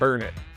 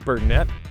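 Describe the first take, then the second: First: It is said the local way, like 'burn it'. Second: It is said the standard way, ending like 'net'. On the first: This is how locals say it. "we call it Burnett. Like, burn it, darn it" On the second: This is how the spelling suggests it. "It should be called Burnett"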